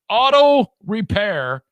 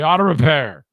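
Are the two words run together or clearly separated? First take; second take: separated; run together. First: The two words are clearly separated and enunciated. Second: The two words are run together as one. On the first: The speaker calls it right. "It's separate words, [name]. Enunciate" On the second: The speaker calls it wrong. "I always combine auto and repair to be auto repair"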